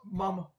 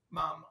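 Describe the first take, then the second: First: "mum" with a short uh and held m; "mum" with the vowel of "thumb"; British "mum". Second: "mom" with an open ah vowel; "mom" rhyming with American "bomb". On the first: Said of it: "just like the Wendigo Wendigo situation". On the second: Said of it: "M O M is mom". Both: Shown as a demonstration.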